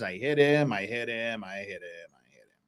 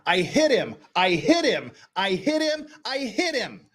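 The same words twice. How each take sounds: First: It is said flatly, as if bored. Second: It is said with passion and energy.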